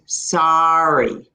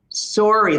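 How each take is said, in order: First: The first vowel is an open ah sound. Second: The first vowel is a rounded o sound. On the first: This is how people around New York say it. "The way they would say it in New York ... It's more open. It's more ah sound" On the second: This is how people in Ontario say it. "how I would say it is sorry ... We have more o sound"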